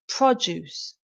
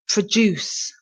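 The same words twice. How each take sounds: First: The stress is on the first syllable. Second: The stress is on the second syllable. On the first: Goods or food products. "The stress is on the first part of the word" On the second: To create or provide something. "The stress is on the last part of the word, the second syllable"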